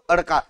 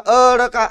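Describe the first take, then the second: First: The first vowel is kept short. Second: The first vowel is drawn out long. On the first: The speaker calls it right. "अडकामध्ये अला जास्त लांबवत नाही आपण" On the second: The speaker calls it wrong. "अडका असं म्हणतोय का"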